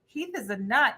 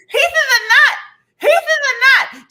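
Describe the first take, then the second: First: Said in the usual way. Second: Very high, loud screamed warning; shrill scream. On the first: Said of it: "I go". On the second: Retold or imitated. Allergic friend screaming at her about the nut. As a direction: scream it with a swelling tongue. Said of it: "She goes".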